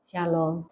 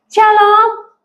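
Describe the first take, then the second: First: Much lower, far softer flat Shalom; cold greeting. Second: Said in the usual way. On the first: Shown as a demonstration. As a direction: mutter Shalom coldly, with no interest. (salam yang dingin dan lirih) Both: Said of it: "cara bicaranya tuh dingin".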